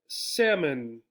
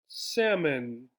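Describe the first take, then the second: No difference in how they are said.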